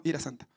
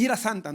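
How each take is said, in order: First: Softer, lower repeat; a dry muttered echo; quiet aside. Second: Said in the usual way. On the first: Shown as a demonstration. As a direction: mutter it again under your breath.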